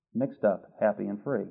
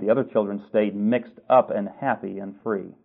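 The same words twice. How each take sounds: First: "Mixed up", "happy" and "free" each set apart by pauses, much softer; slow emphatic repeat. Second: Said in the usual way. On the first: Shown as a demonstration. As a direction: lean on each word, quietly.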